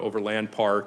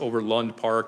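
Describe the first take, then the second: First: It is said the outsider way. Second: It is said the local way. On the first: The speaker calls it wrong. "not Overland Park" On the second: The speaker calls it right. "you got to teach them it's Overland Park"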